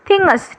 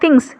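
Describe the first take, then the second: First: The word is said as two syllables. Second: The word is said as one syllable. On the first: This is the older historical form. "തിങ്സിനെ തിങ്ങസ്, T H I N G G E S" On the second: This is the modern form.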